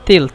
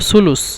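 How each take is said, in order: First: It is said in Egyptian dialect pronunciation. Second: It is said in standard Arabic pronunciation. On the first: "মিশরের আঞ্চলিক ভাষায় বলে তেলথ" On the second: "মিশরের শুদ্ধ ভাষা হলো সুলুস"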